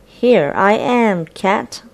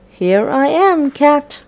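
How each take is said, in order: First: Said in the usual way. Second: Higher teasing mouse, called out. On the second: Acted. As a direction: call out to the cat, taunting. Mouse teasing, repeated more boldly.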